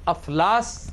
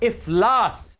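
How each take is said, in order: First: The word begins with an 'a' vowel. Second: The word begins with an 'i' vowel. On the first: The speaker calls it wrong. "अफलास गलत है" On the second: The speaker calls it right. "अलिफ के नीचे जेर है"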